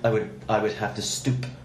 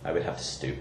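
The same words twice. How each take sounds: First: The final p of stoop is strongly emphasized. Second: The final p of stoop is said plainly. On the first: "it sounds much better with the emphasis" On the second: "do the normal sounding stoop"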